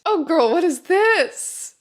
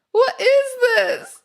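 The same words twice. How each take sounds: First: Said in the usual way. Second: High, loud disbelief; shocked. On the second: Real, not acted. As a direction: shriek it in disbelief.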